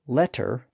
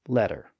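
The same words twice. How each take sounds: First: The middle consonant is a clear T. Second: The middle consonant is a quick D-like tap.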